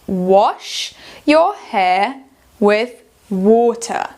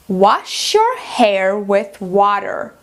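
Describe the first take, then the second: First: It is said in a British accent. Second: It is said in an American accent. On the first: "vamos fazer em britânico" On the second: "Em americano"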